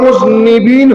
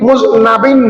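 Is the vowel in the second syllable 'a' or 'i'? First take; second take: i; a. First: The second syllable has an 'i' vowel. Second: The second syllable has an 'a' vowel. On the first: The speaker calls it right. "Shafiul মুযনিবিন হবে" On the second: The speaker calls it wrong. "যারা মুযনাবিন বলে এটা ভুল হয়"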